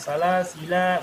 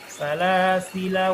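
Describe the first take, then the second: First: The final vowel is drawn out long. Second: The final vowel is short. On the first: The speaker calls it wrong. "Bukan salasila, bukan begitu" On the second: The speaker calls it right. "dibaca pendek aja"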